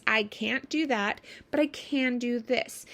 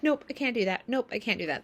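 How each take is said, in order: First: Calm offer. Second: Curt refusal. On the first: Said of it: "people actually respond fairly well". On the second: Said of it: "That's actually not a good boundary". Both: Shown as a demonstration.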